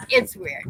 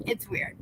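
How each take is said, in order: First: Amused exclaim. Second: Whispered repeat. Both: Real, not acted.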